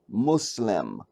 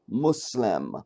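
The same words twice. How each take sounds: First: The word is said like 'Mu-Islam'. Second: The word is said like 'Mu-Islam'.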